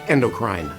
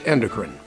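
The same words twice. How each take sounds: First: It is said with a European, highbrow pronunciation. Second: It is said with an American pronunciation.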